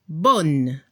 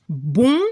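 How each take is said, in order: First: BONNE with a clear final n; feminine French bonne. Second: BON with a nasal vowel, silent n; masculine French bon. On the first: French teacher giving the feminine, BONNE with sounded n. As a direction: close BONNE on an n as in Spanish. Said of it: "lo pronuncia como en español". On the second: French teacher giving the masculine, BON nasalised. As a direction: say BON as if nose blocked, no final n. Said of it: "como si tenía la nariz tapada". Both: Shown as a demonstration.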